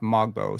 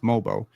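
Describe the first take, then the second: First: A g sound is heard before the b. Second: No g sound is heard before the b. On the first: The speaker calls it wrong. "not Mogbo" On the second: The speaker calls it right. "So it's Mobo"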